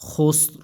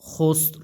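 Both takes have the same delivery.

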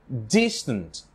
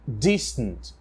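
No difference in how they are said.

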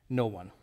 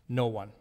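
Both takes have the same delivery.

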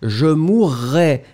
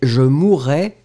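First: The R sound is held long. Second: The R sound is short. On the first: It refers to a future or conditional event. "on devrait prononcer le double R" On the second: It refers to a completed past event. "un R, pour le passé simple"

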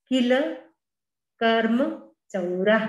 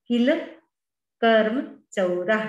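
The two takes are said the same way.

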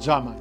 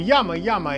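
First: The name begins with a different, non-'ya' sound. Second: The name begins with a 'ya' sound. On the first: The speaker calls it wrong. "а не как мы, россияне, читаем" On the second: The speaker calls it right. "это надо произносить именно так"

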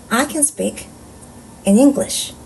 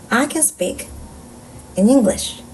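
Both takes have the same delivery.

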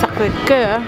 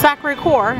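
First: It is said with a French accent. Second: It is said with an American accent. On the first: "as the French would say" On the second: "as the Americans would say"

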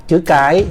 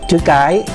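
No difference in how they are said.

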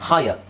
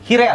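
First: It is said with an 'eye' sound, like high-er. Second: It is read letter by letter as hee-ray. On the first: The speaker calls it right. "H I R E ಏನಾಗುತ್ತೆ ಹಾಯರ್" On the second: The speaker calls it wrong. "ಹಿರೇ ಆಗುತ್ತೆ ಅಲ್ವಾ"

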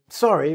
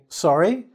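First: It sounds apologetic, excusing an interruption. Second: It sounds questioning, asking for a repeat. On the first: The speaker apologizes for disturbing someone. "I'm sorry to disturb you" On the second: The speaker did not hear what was said. "I didn't hear what you just said to me"

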